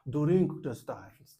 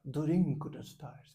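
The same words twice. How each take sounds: First: Put-on very slow, louder English with a Japanese accent. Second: Put-on very slow English with a Japanese accent; slow, careful Japanese-accented English. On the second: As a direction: imitate a Japanese speaker, drawing each word out slowly. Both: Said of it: "que ele é japonês, então ele dizia".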